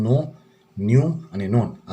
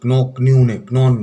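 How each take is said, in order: First: "નો, ન્યુ અને નોન" each starting straight on n; "નો, ન્યુ અને નોન" with no k sound at all; correct silent k. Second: "ક્નો, ક્ન્યુ ને ક્નોન" louder, with every k sounded; wrong pronunciation demo. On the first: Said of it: "આપણે આનું ઉચ્ચારણ કરશું". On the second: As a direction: hit a hard k before each n in "ક્નો, ક્ન્યુ ને ક્નોન". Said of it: "એવું નથી". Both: Shown as a demonstration.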